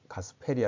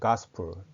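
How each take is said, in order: First: It is said with Korean loanword sounds. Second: It is said with English sounds. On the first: The speaker calls it wrong. "가스펠이 아니고" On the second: The speaker calls it right. "the gospel"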